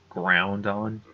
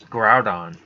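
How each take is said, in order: First: It is said with an N before the D. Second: It is said without an N before the D. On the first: The speaker calls it wrong. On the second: The speaker calls it right.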